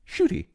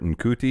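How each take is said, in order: First: The name begins with a sh sound. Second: The name begins with an n sound. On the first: The speaker calls it right. "that's apparently pronounced Shooty" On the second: The speaker calls it wrong. "I was saying Nkuti or Nkuti because that's what it looks like"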